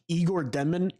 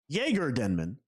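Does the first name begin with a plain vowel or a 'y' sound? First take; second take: plain vowel; 'y' sound. First: The first name begins with a plain vowel. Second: The first name begins with a 'y' sound. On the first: The speaker calls it wrong. "I'm saying it wrong" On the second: The speaker calls it right. "It's Jaeger"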